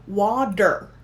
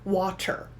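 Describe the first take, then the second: First: The middle consonant is a soft D sound. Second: The middle consonant is a clear T sound. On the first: This is how it is said in the US. "in the U S ... The T sound changed to a D" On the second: This is how it is said in England. "In England, they would say water ... So the t is there"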